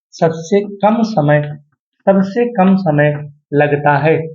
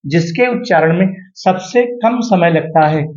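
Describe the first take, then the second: First: Slow, word by word sabse kam samay; slow dictation. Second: Said in the usual way. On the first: Shown as a demonstration. Teacher dictates the definition slowly to his students. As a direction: spell it out slowly so students can note it. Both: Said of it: "ध्यान देना".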